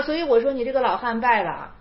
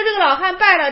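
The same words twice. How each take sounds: First: Said in the usual way. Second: Higher, louder scolding; 高声斥责; raised verdict. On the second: Acted. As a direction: declare the old man beaten, 败了 punched.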